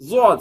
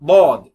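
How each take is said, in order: First: The first consonant sounds like a z sound. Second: The first consonant is emphatic, from the tongue's side. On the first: The speaker calls it wrong. "ஜாவெல்லாம் கலந்தீங்கன்னா" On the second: The speaker calls it right. "ஓர நாக்குல இருந்து இது வெளியேறுகிறது"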